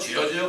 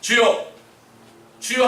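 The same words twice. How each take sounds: First: It is said casually, as mere lip service. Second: It is cried out earnestly, with full heart.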